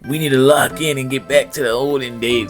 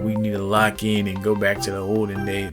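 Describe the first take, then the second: First: The voice is put on to sound like an older man. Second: The voice sounds mostly like the speaker's normal voice. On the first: The speaker calls it right. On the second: The speaker calls it wrong.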